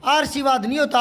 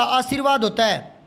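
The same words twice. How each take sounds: First: आशीर्वाद said "aar-seevaad", r moved forward; mispronounced आशीर्वाद. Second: आशीर्वाद said "aa-seer-vaad"; correct आशीर्वाद. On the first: Teacher repeating a pupil's error, आशीर्वाद as "aarseevaad". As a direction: put the r first in आशीर्वाद, "aarseevaad". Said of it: "इसने तो कर दिया आशीर्वाद". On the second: Teacher correcting pupils, आशीर्वाद as "aaseervaad". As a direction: put the r before "vaad" in आशीर्वाद. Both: Shown as a demonstration.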